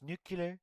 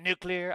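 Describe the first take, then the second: First: "nuclear" said as NOO-kyuh-ler; mispronounced NUCLEAR. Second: "nuclear" said as NOO-klee-er; standard NUCLEAR. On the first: Streamer mimics Trump on how some people say it, "nuclear" as nucular. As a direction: turn "nuclear" into nucular, dropping the L after the K. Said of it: "Some people say it's". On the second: Streamer mimics Trump giving his own version, "nuclear" as NOO-klee-er. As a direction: give "nuclear" its L straight after the K. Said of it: "I pronounce it nuclear". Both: Retold or imitated.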